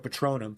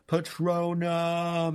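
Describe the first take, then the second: First: The word is said quickly and plainly. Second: The word is drawn out with dramatic energy. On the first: It is delivered without any special weight. "It's just expecto Patronum" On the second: It is an epic, climactic moment. "it's not like Patronum"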